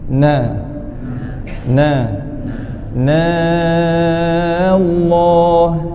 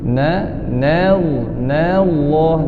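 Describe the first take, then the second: First: The phrase is read slowly, drawn out. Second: The phrase is read straight on, without slowing. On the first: The speaker calls it wrong. "jangan baca lambat-lambat begitu" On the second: The speaker calls it right.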